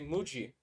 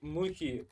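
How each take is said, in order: First: The middle consonant is a J sound. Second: The middle consonant is an H sound. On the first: "I would say Muji, of course" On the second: "for some reason from Spanish, because in Spanish the uh, J is actually H"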